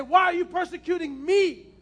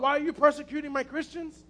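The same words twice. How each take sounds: First: Louder question, landing firmly on "me"; stress on ME. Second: Said in the usual way. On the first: Retold or imitated. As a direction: punch the final word "me" to make the point. Preacher stresses the true quote.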